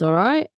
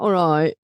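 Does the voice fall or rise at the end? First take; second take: rises; falls. First: The voice rises at the end. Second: The voice falls at the end. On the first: The speaker calls it right. "it goes up at the end" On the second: The speaker calls it wrong. "It's not all right"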